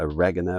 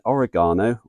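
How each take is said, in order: First: The word is said the American way. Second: The word is said the British way.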